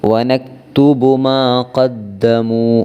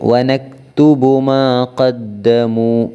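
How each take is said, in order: The two takes are said the same way.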